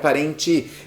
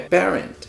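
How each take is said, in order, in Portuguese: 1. Um som de vogal extra é acrescentado no final. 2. A palavra termina limpa, na consoante final. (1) "não é parente" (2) "é parent"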